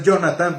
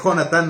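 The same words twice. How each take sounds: First: Jonatán with an English-style J, like "Yonatán"; gringo Jonatán. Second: Jonatán with a raspy Spanish J, like "Honatán"; correct Spanish Jonatán. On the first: Pastor shows the wrong reading: Jonatán with English J. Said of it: "no es Jonatán". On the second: Pastor corrects congregation's reading: Jonatán with throaty J. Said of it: "Así como Jonatán también". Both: Shown as a demonstration.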